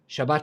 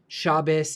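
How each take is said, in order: First: The word ends in a t sound. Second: The word ends in an s sound. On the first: This is the Hebrew pronunciation. "instead of Shabbat Shalom" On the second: This is the Yiddish pronunciation. "all the pronunciations of stuff change"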